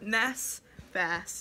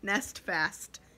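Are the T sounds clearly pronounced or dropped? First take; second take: dropped; pronounced. First: The T sounds are dropped from both words. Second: Both T sounds are clearly pronounced. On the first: The speaker calls it wrong. "Not Nest Fast" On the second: The speaker calls it right. "You gotta put both T's in there"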